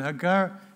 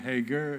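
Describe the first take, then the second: First: The name is said with a Hebrew pronunciation. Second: The name is said with an English pronunciation. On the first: "I pronounce it the Hebrew way" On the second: "depending on your preference"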